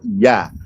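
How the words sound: The word ends with an open 'a' vowel. This is how someone from Surabaya says it. "kalau orang Surabaya bilang"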